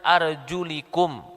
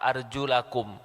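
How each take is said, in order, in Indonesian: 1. Vokal setelah L adalah 'i'. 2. Vokal setelah L adalah 'a'. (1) "lamnya di kasroh" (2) "lam terakhirnya di fathah"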